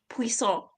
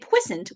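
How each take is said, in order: First: It sounds like the name of a food. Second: It sounds like a dirty word. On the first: It sounds like a dish. "which sounds like some sort of food" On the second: It sounds dirty or medical. "which sounds dirty"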